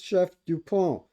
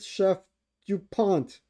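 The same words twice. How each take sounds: First: The name is said with a French accent. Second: The name is said with an American accent. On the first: The speaker calls it right. "It's Chef Dupont" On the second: The speaker calls it wrong. "I know you're American. You don't speak French"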